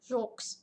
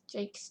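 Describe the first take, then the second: First: The name is said with a French pronunciation. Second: The name is said with an English pronunciation. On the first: The speaker calls it right. "I say that with French accent" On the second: The speaker calls it wrong. "Jake's just sounds weird"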